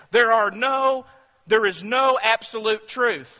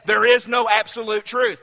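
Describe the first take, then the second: First: Louder, insistent mock claim; emphatic quote. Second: Louder, stress on is; emphatic quote. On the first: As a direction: declare it like a smug slogan. Quoting relativist statement. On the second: Retold or imitated. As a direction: hammer the claim home. Re-quoting same statement.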